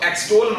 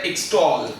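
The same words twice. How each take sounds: First: एक्सटॉल with an opening "eh" sound, as "eks-tol"; mispronunciation demo. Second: एक्सटॉल with an opening short "ih", as "iks-tawl"; correct pronunciation demo. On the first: Teacher warns students against saying एक्सटॉल as "eks-tol", mispronunciation demo. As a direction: say एक्सटॉल wrongly, starting "eks" instead of "iks". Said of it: "इसको एक्सटॉल मत बोलिएगा". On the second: Teacher shows students that एक्सटॉल is said "iks-tawl", correct pronunciation demo. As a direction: say एक्सटॉल starting "iks", not "eks". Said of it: "ये कहलाता है एक्सटॉल".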